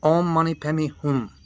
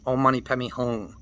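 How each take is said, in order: First: "Hum" ending with the lips closed on m; the correct m-ending "Hum"; correct pronunciation. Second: "Hum" said as a nasal "hung" with an ng ending; the wrong ng-ending "Hum"; wrong pronunciation. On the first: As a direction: demonstrate "Hum" with the lips closing. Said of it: "But it's hum". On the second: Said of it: "And it's not". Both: Shown as a demonstration.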